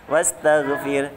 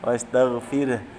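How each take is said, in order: First: It ends abruptly with no trace of vowel. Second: It ends with a faint partial vowel sound. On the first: The speaker calls it wrong. "Kalau dibaca wastaghfir jadi salah ya" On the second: The speaker calls it right. "itu ada suaranya sepertiga suara ya"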